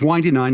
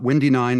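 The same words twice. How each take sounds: First: The first vowel sounds like in 'wine'. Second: The first vowel sounds like in 'win'. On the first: The roads wind and twist. The speaker calls it right. "it is Windy Nine" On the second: The weather is breezy. The speaker calls it wrong. "not Windy Nine, although it can be windy"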